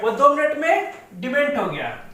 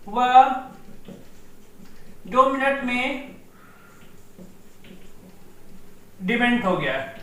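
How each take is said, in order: First: Said in the usual way. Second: Slow, broken into chunks with long pauses; slow dictation. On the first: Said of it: "दो minute में (slowed repeat follows)". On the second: Shown as a demonstration. Teacher dictating the mnemonic to students, slow with long pauses. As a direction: dictate it piece by piece so students can write. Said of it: "वह दो minute में demat हो गया (repeated for dictation)".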